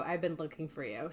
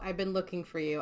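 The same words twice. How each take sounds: First: "been" in "I've been looking for you" said softer, trailing off; softer echo. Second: Said in the usual way. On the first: Retold or imitated. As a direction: let the repeat fade away quietly. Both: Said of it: "this is a quote verbatim".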